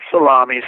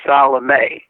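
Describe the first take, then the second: First: It sounds like the sandwich word salami. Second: It does not sound like the word salami. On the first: The speaker calls it wrong. "not salami" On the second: The speaker calls it right.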